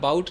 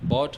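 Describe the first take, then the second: First: The vowel glides like the one in 'out'. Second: The vowel is a plain 'aw' like 'caught'. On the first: The speaker calls it wrong. "बाकी जगह बाउट नहीं चलेगा" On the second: The speaker calls it right. "बॉट होगा"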